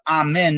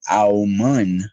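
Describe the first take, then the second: First: The word is said the ordinary English way, 'amen'. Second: The word is said with rounded vowels, 'aumun'. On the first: This is the everyday English form. "amen is how you say it in English" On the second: This form creates a frequency felt in the head. "It's aumun"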